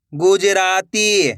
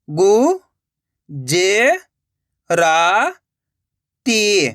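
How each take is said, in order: First: Slow, stretched reading of the whole word; joined-up word. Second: Syllable by syllable. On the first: Teacher showing learners the finished word, slowly joined up. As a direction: blend the syllables into one drawn-out word. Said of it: "तो मिलके बन जाएगा". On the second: Teacher sounding out a word for learners, syllable by syllable. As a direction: separate drawn-out syllables with long gaps. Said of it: "उच्चारण करके ही पढ़ सकते हो". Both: Shown as a demonstration.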